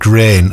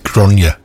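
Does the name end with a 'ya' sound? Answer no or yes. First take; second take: no; yes. First: It sounds like the English word grain. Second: It ends with a y sound, like grawn-ya. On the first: The speaker calls it wrong. "I pronounced it grain last week" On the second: The speaker calls it right. "I got a text from Angie saying it's Gráinne"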